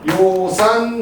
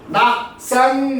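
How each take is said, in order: First: The first syllable is pronounced yo. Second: The first syllable is pronounced nak. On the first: The speaker calls it right. "이거는 요산, 요수. 이때는 좋아할 요자입니다" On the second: The speaker calls it wrong. "잘못 읽어가지고, 낙산, 낙수 이렇게 읽으면 안 되죠"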